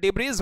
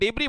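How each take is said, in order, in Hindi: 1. यह शब्द z ध्वनि पर खत्म होता है। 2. यह शब्द लंबी ee स्वर पर खत्म होता है। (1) "डिब्रीज मत बोलिएगा" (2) "इसको डिब्री बोलिएगा"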